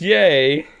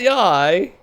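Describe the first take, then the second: First: The name ends with an 'ay' sound. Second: The name ends with an 'eye' sound. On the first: The speaker calls it right. "It's yay" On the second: The speaker calls it wrong. "It's not yai"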